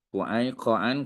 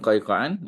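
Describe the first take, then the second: First: The first syllable has an 'oo' vowel. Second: The first syllable has no 'oo' vowel. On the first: The speaker calls it right. "yang betulnya Qu'ai. Q U" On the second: The speaker calls it wrong. "bukan Qaiqan, ... kurang tepat"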